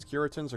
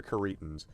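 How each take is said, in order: First: Curitans as KYUR-ih-tans; Curitans with a short, unstressed middle syllable; first-syllable stress. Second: Curitans as kuh-REE-tans; Curitans with a long, stressed middle syllable; second-syllable stress. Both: Shown as a demonstration. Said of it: "I can never figure out if it's".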